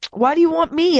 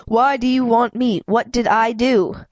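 First: Put-on boy screaming after the thugs. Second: Said in the usual way. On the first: A narrator's reading. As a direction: shout after them in panic. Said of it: "I screamed after them".

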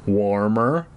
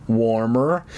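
Both takes have the same delivery.

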